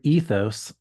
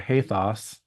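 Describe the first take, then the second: First: The word is said with an English pronunciation. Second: The word is said with a Greek pronunciation.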